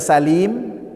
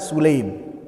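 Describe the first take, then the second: First: The first vowel is an 'a' sound. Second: The first vowel is a 'u' sound. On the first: "itu bisa dibaca Salim" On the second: "bisa juga dibaca Sulaim"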